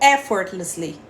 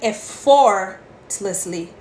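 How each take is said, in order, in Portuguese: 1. A tônica cai na primeira sílaba. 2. A tônica cai em uma sílaba posterior. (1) "Porque a sílaba tônica é no E" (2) "Não é effortlessly"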